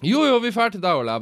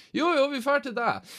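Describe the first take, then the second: First: High, louder, firmer insistence; pushy friends. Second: High, singsong insistence; insisting friends. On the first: Friends loudly overruling Ole's no-alcohol excuse, high and firm. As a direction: settle it, loud and cheerful. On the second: Friends overruling Ole's refusal, high and singsong. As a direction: brush off his excuse cheerfully. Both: Retold or imitated.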